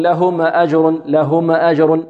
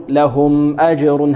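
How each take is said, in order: First: Mistakenly vowel the م of "لهم" before "أجر"; little echo vowel after م in "لهم"; bounced meem. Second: Slow chant, vowelless م in "لهم" held briefly before "أجر"; no bounce on the م of "لهم"; still, held meem. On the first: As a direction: demonstrate the error of a bouncing م in "لهم". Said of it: "لا نقول". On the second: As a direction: let the sound flow through the م of "لهم". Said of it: "هكذا". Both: Shown as a demonstration.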